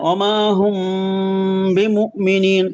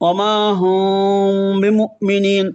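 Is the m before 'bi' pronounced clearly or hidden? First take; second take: clear; hidden. First: The m is fully nasalized and clearly closed. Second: The m is hidden, lightly articulated into the b. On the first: "পুরোপুরি গুণনা করব যখন অমা হুম এখানে ইকফার কোনো শব্দই আসে না" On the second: "আর যখন ইকফা করবেন"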